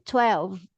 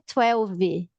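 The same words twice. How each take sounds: First: The word ends cleanly on the v sound. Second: The word ends with an added vowel after v. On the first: The speaker calls it right. "é twelve. E termina no V" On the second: The speaker calls it wrong. "porque não é twelve"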